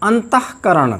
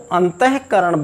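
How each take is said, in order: First: अंतःकरण with only a breath before करण; a short puff of air inside अंतःकरण; correct visarga. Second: अंतःकरण with a voiced he before करण; incorrect visarga. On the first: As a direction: say अंतःकरण as an-tah-karan, no extra syllable. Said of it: "इसका शुद्ध उच्चारण है". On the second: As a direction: say अंतःकरण as an-ta-he-karan. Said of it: "किंतु वह अशुद्ध है". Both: Shown as a demonstration.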